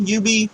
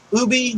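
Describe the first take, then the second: First: Ubi said as "YOU-bee"; alternative pronunciation. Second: Ubi said as "OO-bee"; alternative pronunciation. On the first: Offering viewers another way to say it, Ubi as "YOU-bee". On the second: Offering viewers one way to say it, Ubi as "OO-bee". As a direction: say Ubi with an opening "oo". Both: Shown as a demonstration. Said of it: "however you wanna pronounce it".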